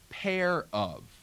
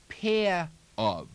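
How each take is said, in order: First: The r is pronounced in a General American way. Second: The r is dropped, with space between words. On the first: "in American" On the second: "If the words were far apart in New York"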